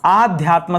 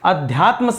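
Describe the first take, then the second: First: The first vowel is a long aa. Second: The first vowel is a short a. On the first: The speaker calls it right. "आ आध्यात्म शब्द होता है, अ नहीं होता" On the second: The speaker calls it wrong. "अध्यात्म शब्द नहीं"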